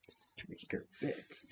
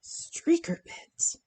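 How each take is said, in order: First: Whispered through a soft laugh, slow. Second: Slow breathy whisper of the phrase, amused. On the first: Still amused by the viewer's comment, laughing whisper. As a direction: giggle and whisper the phrase. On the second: Reading a viewer's comment to herself, whispered slowly. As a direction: savor the words in a hushed whisper. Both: Real, not acted.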